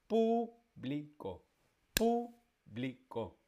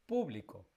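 First: "público" very slowly, PÚ held, pauses before bli and co; syllable-by-syllable stress. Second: Said in the usual way. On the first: Shown as a demonstration. Teacher drills the example, slow separated stress on pú. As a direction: hold pú, then place bli and co separately. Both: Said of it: "la antepenúltima".

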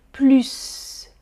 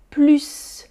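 First: "Plus" said "plys", hissing S like a snake. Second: "plus" said "plys", sharp S at the end. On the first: Teacher repeats the hissed-S form. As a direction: end "Plus" on a long snake S. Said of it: "S, comme le serpent". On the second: Teacher shows the second way to say it. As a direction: end "plus" on a clear hissing S. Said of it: "Deuxième". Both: Shown as a demonstration.

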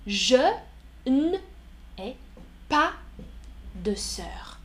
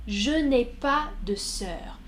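First: Je, n'ai, pas spaced, de sœur whispered; word by word, fading. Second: Said in the usual way. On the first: Shown as a demonstration. Teacher isolating each word of the negation. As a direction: pause on each word, let it fall to a whisper. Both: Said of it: "Négation".

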